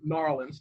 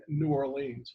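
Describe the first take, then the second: First: "Narlands" for New Orleans, run into one word; "Narlands", two syllables, the local way; local pronunciation. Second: "New Orleans" said in full, ending in a long "leens"; "New Orleans" as two careful, unhurried words; full pronunciation. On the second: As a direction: say "New Orleans" slowly, each word separate. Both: Shown as a demonstration. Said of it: "depending on how you want to pronounce it".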